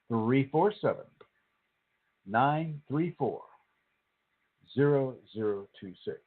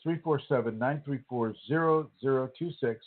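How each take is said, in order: First: The number is read at a slow pace. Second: The number is read at a normal pace.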